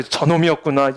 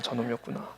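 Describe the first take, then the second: First: Said in the usual way. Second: 저놈이었구나 muttered much softer and lower, almost to himself; dark muttered realization. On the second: Shown as a demonstration. Jealous husband eyeing the lawyer friend, muttered low under his breath. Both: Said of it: "이렇게 되는 거야".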